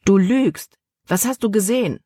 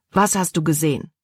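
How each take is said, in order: First: Higher, forceful accusation and demand; accusing. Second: Said in the usual way. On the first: A narrator's reading. Caleb presses Libby who denies it, accusing. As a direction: press hard for the truth.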